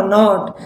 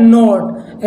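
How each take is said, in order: First: नॉट with an open "aw"; short open O. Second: नोट with a closed "oh", drawn out; long O sound. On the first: Teacher recalling the earlier word, नॉट with open "aw". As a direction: say नॉट as "nawt". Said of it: "वो वाला कौन सा था". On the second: Teacher contrasting two words, नोट with long "oh". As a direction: say नोट as a slow "note". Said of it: "ये है नोट". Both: Shown as a demonstration.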